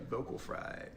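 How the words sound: It is said in a low, creaky voice.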